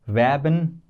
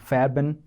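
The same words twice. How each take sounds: First: It begins with a v sound. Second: It begins with an f sound. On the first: The speaker calls it right. "whichever word is taken from English directly, they don't change that much" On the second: The speaker calls it wrong. "is not"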